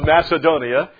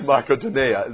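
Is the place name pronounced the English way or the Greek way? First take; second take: English; Greek. First: The name has an English pronunciation. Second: The name has a Greek pronunciation. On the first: The speaker calls it wrong. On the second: The speaker calls it right.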